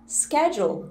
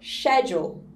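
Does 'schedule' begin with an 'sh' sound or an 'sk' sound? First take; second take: sk; sh. First: The word begins with an 'sk' sound. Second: The word begins with an 'sh' sound. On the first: This is the American pronunciation. "ao invés de falar schedule" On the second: This is the British pronunciation. "eles falam schedule"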